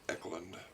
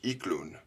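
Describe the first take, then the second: First: The name has an American English pronunciation. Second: The name has its original, non-American pronunciation. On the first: This is how the family says it in America. "in America we say" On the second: This is how the name was first pronounced. "Original pronunciation is"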